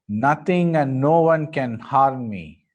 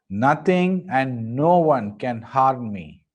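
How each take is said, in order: Both takes have the same delivery.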